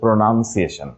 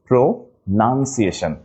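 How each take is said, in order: First: The second syllable sounds like 'noun'. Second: The second syllable sounds like 'nun'. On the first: The speaker calls it wrong. "আমরা অনেকেই বলে থাকি প্রোনাউন্সিয়েশন it is not" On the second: The speaker calls it right. "এটা হচ্ছে প্রোনাউন্সিয়েশন not নাউন"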